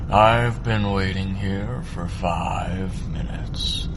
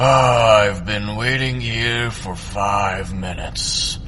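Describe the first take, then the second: First: The low breathy voice is spoken quietly. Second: The low breathy voice is spoken loudly. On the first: "What if he's quiet?" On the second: "he's loud"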